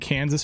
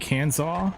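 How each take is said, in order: First: The ending is pronounced like 'sas'. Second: The ending is pronounced like 'saw'. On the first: This is how the name is usually said. "shouldn't Kansas be" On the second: This follows the pattern of the neighboring state's name. "by that logic"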